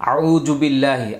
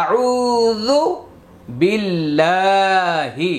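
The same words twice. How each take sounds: First: আউযু said with a জ jim sound, quick and plain; wrong jim sound. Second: আউযু with the proper য sound, slow and chanted; correct recitation. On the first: Teacher showing students the common mistake, plain quick জ. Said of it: "বেশিরভাগ মানুষ এখানে জিম দিয়া পড়ে". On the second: Teacher giving students the right form, slow and chanted. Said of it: "এই যে রিব্বা". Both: Shown as a demonstration.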